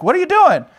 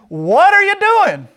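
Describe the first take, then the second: First: High, loud, quick demand; acted high-pitched exclamation; indignant question. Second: Very high, loud, drawn-out squawk; slow, high-pitched outraged donkey voice; indignant talking donkey. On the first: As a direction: fire it out in mock outrage at normal pace. Retells Balaam's exchange with donkey. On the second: Acted. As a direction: stretch it out in a shrieking cartoon animal protest. Voices donkey being beaten.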